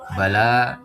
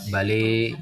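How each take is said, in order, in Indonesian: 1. Vokal akhirnya adalah a terbuka yang biasa. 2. Vokal akhirnya condong ke e.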